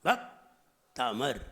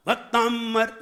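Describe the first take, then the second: First: भक्तामर low, with a long pause after "bhak"; unforced correct pronunciation. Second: भक्तांबर higher, pushed onto a long nasal m; mispronounced. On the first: Preacher says don't push it, slow split भक्तामर. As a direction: say bhak... taamar for भक्तामर, slowly and without force. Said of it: "जोर नहीं लगाइए". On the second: Preacher shows the mistake, forced nasal भक्तांबर. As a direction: force the middle of भक्तांबर, "bak-taammar". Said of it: "नहीं". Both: Shown as a demonstration.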